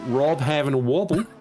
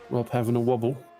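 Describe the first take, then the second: First: It is said in an Australian accent. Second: It is said in the speaker's usual accent.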